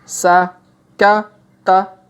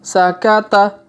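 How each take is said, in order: First: The syllables are said slowly and separately. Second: The syllables are said quickly and run together. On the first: "kita baca pelan-pelan" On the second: "Kalau dipercepat"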